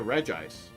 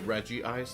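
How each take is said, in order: First: 'Reg' runs straight into 'Ice' without 'ee'. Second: An extra 'ee' vowel comes before 'Ice'. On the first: The speaker calls it right. "I used to say Reg Ice" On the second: The speaker calls it wrong. "Like they pronounce the I twice, as if there were two I's"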